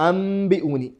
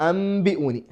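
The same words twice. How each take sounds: No difference in how they are said.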